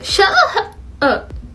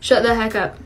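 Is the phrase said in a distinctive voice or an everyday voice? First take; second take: distinctive; everyday. First: It is said in a distinct, marked tic voice. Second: It is said in an ordinary conversational voice. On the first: The tic is clearly recognizable as a tic. "instead of saying" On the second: The tic blends in and does not sound like one. "my ticks tend to sound more like my normal voice. So I'll just say"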